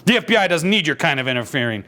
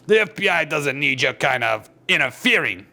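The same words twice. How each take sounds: First: It is read in a different character voice. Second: It is read in the Thing's character voice. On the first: The right character is speaking. The speaker calls it right. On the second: The wrong character is speaking. The speaker calls it wrong.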